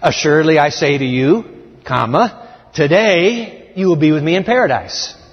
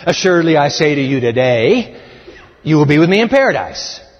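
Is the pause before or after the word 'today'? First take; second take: before; after. First: The pause comes before the word today. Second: The pause comes after the word today.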